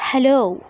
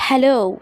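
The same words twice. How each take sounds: The two takes are said the same way.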